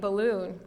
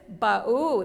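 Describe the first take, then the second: First: The complete word is said with all sounds. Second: A simplified, partial form of the word is said. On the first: The adult's correct model of the word. "we still say balloon" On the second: A child's attempt at the word.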